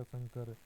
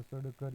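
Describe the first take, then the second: First: Said in the usual way. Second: सड़कर with a hard ḍ and a short vowel before kar; spelled-out nasal form. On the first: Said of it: "अनुस्वार लगाकर लिखा". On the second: Shown as a demonstration. Teacher repeating the sam plus kar example, spelled-out सड़कर. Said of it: "पूर्व वाले व्यंजन के ऊपर अनुस्वार".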